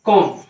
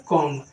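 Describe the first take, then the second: First: कॉम्ब with a silent b, just kom; कॉम्ब ends on the m, no b at all; correct pronunciation. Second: कॉम्ब said with the b sounded at the end, komb; the common mistake, b pronounced in कॉम्ब; कॉम्ब read as komb with a final b; wrong pronunciation. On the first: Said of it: "तो फिर इसका सही pronunciation क्या है". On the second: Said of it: "लेकिन यह है गलत". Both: Shown as a demonstration.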